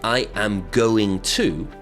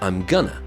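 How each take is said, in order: First: Every word is said fully and separately. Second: The words are contracted and blended together. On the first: "we won't say" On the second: "we'll say"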